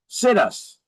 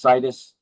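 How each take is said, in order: First: The word sounds like the phrase 'sit us'. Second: The word does not sound like 'sit us'. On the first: "I like to pronounce it situs, because ... we say we're going to sit us right here" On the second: "Even though it's pronounced situs"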